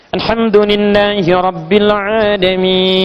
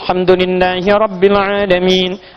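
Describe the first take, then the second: First: Long vowels are held longest, recited slowly. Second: Long vowels are held briefly, recited fast.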